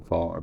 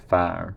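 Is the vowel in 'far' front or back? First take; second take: back; front. First: The vowel is said far back in the mouth. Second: The vowel is said far forward in the mouth. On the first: This is how the speaker's own accent says it. "rather than far" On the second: This is how certain Irish accents say it. "That's something I hear in certain Irish accents"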